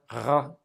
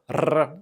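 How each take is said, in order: First: The R is made at the back of the throat. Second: The R is rolled with the tongue tip. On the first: "the French R, ... in the back" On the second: "a Spanish R, ... at the tip of the tongue"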